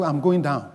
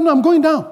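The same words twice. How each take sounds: First: Said in the usual way. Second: High-pitched, eager insistence; excited. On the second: Retold or imitated. Brother insisting to his pastor he's going downstairs, excited. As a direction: repeat it excitedly, pitch jumping up. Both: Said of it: "he repeated it excitedly".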